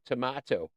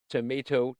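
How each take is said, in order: First: "tomato" said tuh-MAH-toh. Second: "Tomato" said tuh-MAY-toh. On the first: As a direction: put a broad AH in "tomato". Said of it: "I say tomato". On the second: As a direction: put a long AY in "Tomato". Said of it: "You say tomato". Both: Shown as a demonstration.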